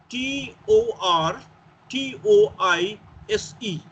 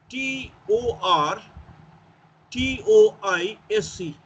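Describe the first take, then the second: Both takes have the same delivery.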